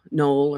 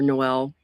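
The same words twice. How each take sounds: First: "Knoll" with one long O; Knoll as one syllable. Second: "Noel" in two syllables, no-EL; Noel like the carol. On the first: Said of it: "I may be pronouncing it wrong". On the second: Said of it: "It's spelled like Noel". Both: Shown as a demonstration.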